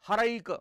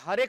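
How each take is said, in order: First: The second vowel is a gliding 'ai' sound. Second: The second vowel is a plain 'e' sound. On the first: This is the form the sandhi rule produces. The speaker calls it right. "पण ते व्हायला कसं पाहिजे होतं" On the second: This is how people commonly say it in Marathi. The speaker calls it wrong. "आपण काय म्हणतो त्याच्याकडे"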